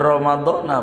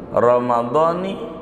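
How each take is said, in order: First: The word ends with an 'a' vowel. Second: The word ends with an 'i' vowel. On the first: The speaker calls it wrong. "jangan ramadhana begitu" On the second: The speaker calls it right. "Kenapa harus ramadhani?"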